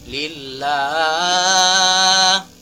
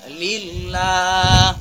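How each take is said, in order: First: The long vowel is held beyond two beats. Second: The long vowel is held for two beats. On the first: The speaker calls it wrong. "Tidak boleh" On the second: The speaker calls it right. "hanya cukup"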